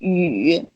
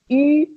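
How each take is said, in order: First: The syllable is said in the third tone. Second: The syllable is said in the first tone. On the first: "this is this one" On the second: "It's the first one"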